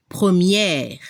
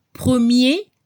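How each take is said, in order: First: PREMIÈRE with open è and audible r; feminine French première. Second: PREMIER ending on a closed é, silent r; masculine French premier. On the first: French teacher giving the feminine example, PREMIÈRE with final r. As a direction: open the last vowel of PREMIÈRE and sound the r. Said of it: "se debe escuchar la última consonante R". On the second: French teacher giving the masculine example, PREMIER without final r. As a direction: end PREMIER on é with no r. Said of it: "se escucha el sonido E al final". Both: Shown as a demonstration.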